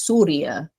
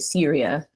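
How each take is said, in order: First: The name is said with an Arabic pronunciation. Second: The name is said with an American pronunciation. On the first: "in Arabic it's pronounced as Surya" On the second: "Americans say Syria"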